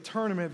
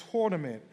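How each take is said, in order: First: Said in the usual way. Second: "tournament" with a rounded East Coast "tor" vowel. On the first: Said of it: "instead of tournament". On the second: Shown as a demonstration. Pastor showing the church New York speech, East Coast accent. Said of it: "they will say tournament".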